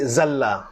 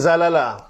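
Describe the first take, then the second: First: The two L sounds merge into one long L. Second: Two separate L sounds with a vowel between. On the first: This is the assimilated form actually used. "dia idghamkan ain fi'il karam pada lam fi'il, jadi zalla" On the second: This is the underlying original form. "Fi'il madi zalala"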